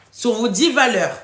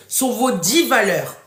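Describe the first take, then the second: No difference in how they are said.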